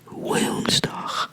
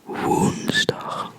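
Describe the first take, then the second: First: The W is hard and sharp. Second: The W is soft and relaxed. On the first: The speaker calls it wrong. "Don't make it too sharp. Don't say like woensdag" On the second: The speaker calls it right. "If you want to sound like a native Dutch speaker, you could say"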